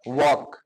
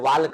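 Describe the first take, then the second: First: The L sound is left out of the word. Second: The L sound is pronounced in the word. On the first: The speaker calls it right. "वॉक बोला जाता है" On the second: The speaker calls it wrong. "वाल्क ना"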